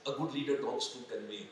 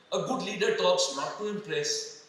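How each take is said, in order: First: Softer, lower answer landing on "convey"; stress on convey. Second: Slow, weighted "not to impress", the word "not" leaned on; stress on NOT to impress. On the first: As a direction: settle the point quietly on "convey". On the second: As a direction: spell out what a leader does NOT do, slowly. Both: Shown as a demonstration.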